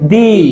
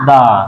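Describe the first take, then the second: First: The vowel is a long 'ee' sound. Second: The vowel is a short 'uh' sound. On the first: The next word starts with a vowel. "Vowel যখন কোনো ওয়ার্ডের আগে বসবে ... উচ্চারণ হবে দি" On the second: The next word starts with a consonant. "Vowel পাঁচটি বাদে ... উচ্চারণ হয়ে যাবে দা"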